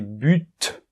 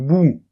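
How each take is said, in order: First: The word ends with a clearly pronounced T. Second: The word ends on a vowel, with no T. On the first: The speaker calls it right. "On prononce le T" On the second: The speaker calls it wrong. "Non, attention"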